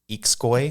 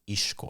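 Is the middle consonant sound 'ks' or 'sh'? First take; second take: ks; sh. First: The x is said as a ks sound. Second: The x is said as a sh sound. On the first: The speaker calls it wrong. "people might pronounce it Ixcoy" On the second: The speaker calls it right. "It's actually pronounced Ishkoy"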